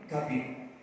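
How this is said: The first vowel is an 'a' sound.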